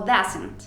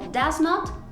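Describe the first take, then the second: First: It is said as one contracted word. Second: It is said as two separate full words. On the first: "Puedes decir" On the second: "en lugar de"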